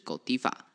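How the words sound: The name is said the European way. "它在欧洲的念法是狗地吧"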